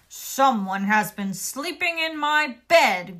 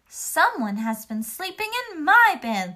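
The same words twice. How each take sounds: First: It is said in a deep, growling voice. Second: It is said in a normal, medium voice.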